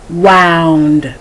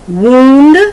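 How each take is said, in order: First: It is said with the verb pronunciation. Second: It is said with the noun pronunciation. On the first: It names an action. "to wound" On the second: It names a thing. "I go from noun then to verb"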